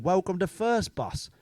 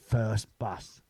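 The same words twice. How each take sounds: First: Slow, with "First" said fully and falling as the company name; a bus driver's slow routine greeting, "First" stressed. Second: Said in the usual way. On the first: Retold or imitated. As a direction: drawl "Welcome to First Bus" like a stock greeting. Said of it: "he said".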